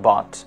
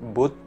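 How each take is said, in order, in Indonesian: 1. Vokalnya bunyi 'a' terbuka. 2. Vokalnya bukan bunyi 'a' terbuka. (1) "tapi dibaca but" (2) "bukan dibaca"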